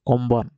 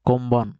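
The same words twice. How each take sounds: Both takes have the same delivery.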